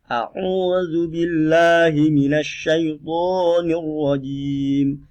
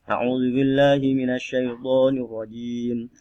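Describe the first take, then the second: First: The phrase is recited slowly and deliberately. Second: The phrase is recited at a moderate speed. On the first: "cara membaca ini pelan" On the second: "Tidak cepat juga tidak pelan"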